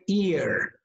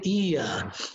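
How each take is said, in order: First: It is said with an American accent. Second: It is said with a British accent. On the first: "In American English, we say ear" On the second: "In British English, you say ear"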